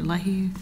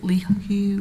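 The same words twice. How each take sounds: First: Leahy with the first syllable like "lay"; second pronunciation option. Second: Leahy with the first syllable like "lee"; first pronunciation option. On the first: Court offering the other reading of the name, Leahy said as "lay-hoo". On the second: Court checking the defendant's name, Leahy said as "lee-hoo". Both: Shown as a demonstration. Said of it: "is it Leahy or Leahy".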